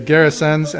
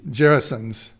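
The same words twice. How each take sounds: First: It begins with a hard G sound. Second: It begins with a soft G sound.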